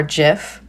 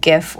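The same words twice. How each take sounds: First: "gif" with a soft g, like jif; soft-g pronunciation. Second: "gif" with a hard g, as in gift; hard-g pronunciation. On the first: Host giving the other pronunciation, "gif" with soft g. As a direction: say "gif" starting with a j sound. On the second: Host telling listeners of the pronunciation debate, "gif" with hard g. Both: Shown as a demonstration. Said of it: "completely and totally unclear as to whether it's pronounced".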